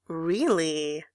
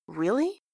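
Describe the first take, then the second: First: "Really" drawn out, swelling in the middle; teasing echo. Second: "Really" climbing steeply at the end; surprised question. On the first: Gavroche teasing from the door, "Really" drawn out. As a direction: stretch "Really" into a teasing singsong. Boy echoes her, grinning. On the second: Eponine doubting what Grantaire says, "Really" rising. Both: A narrator's reading.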